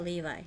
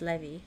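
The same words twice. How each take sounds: First: The name sounds like the jeans brand. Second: The name does not sound like the jeans brand. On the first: "it's pronounced like the jeans" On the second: "It's Levi"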